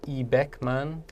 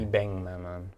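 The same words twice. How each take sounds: First: A k sound comes before the m. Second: An ng sound comes before the m. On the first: The speaker calls it wrong. "instead of" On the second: The speaker calls it right. "almost that the N G sound"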